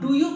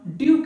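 First: Both words are said fully as two syllables. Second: The words are blended into one short syllable. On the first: "इसे हम डू यू कहते हैं" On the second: "जबकि इसे हम ड्यू कहते हैं"

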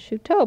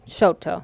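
First: The name has a French pronunciation. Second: The name has a local American pronunciation. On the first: This follows the name's French origin. "it really is correct in the French pronunciation" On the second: This is how locals have always said the name. "people in Oklahoma say Chouteau"

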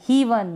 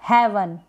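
First: The vowel sounds like a long 'ee'. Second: The vowel sounds like a short 'eh'. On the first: The speaker calls it wrong. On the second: The speaker calls it right.

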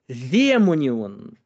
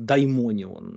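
First: The first syllable is a plain 'de' sound. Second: The first syllable has the diphthong 'dai'. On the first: This follows the Byzantine and modern Greek pronunciation. The speaker calls it right. "согласно этой фонетике это звучит как демонион" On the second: This follows the Erasmian reading used in European philosophy. The speaker calls it wrong. "они говорят как даймонион. Это, конечно, страшное варварство"

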